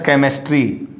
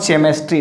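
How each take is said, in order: First: CHEMISTRY begun with a K sound; hard K for CH. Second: CHEMISTRY begun with CH as in chair; wrong soft CH. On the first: Teacher corrects the mistake, CHEMISTRY with a hard K. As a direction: say CHEMISTRY as "kemistry". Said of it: "it's a chemistry". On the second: Teacher shows students the mistake, CHEMISTRY with a CH sound. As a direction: say CHEMISTRY as "tchemistry". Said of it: "not chemistry". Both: Shown as a demonstration.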